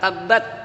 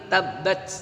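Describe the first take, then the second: First: The final t is plain without hissing. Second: The final t is released with a hiss. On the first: The speaker calls it wrong. "bukan tabbat" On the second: The speaker calls it right. "dibaca mendesis"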